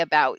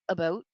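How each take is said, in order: First: The vowel is said the New York way. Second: The vowel is said the Canadian way. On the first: "the way I say about" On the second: "It sounds a a little bit more like about"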